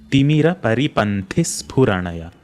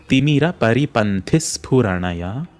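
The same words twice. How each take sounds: No difference in how they are said.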